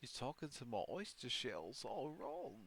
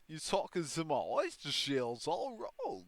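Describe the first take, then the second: First: The voice is pitched lower. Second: The voice is pitched higher.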